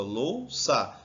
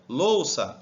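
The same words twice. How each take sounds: First: Louça divided as lou, ça; Louça in two separate beats; syllable by syllable. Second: Said in the usual way. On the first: Shown as a demonstration. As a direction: put a break between the two syllables of Louça. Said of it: "Divide aqui".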